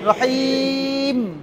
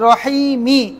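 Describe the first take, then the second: First: The word ends on a bare consonant. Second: The word ends with a short vowel. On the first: The reciter stops at this word. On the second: The reciter continues without stopping.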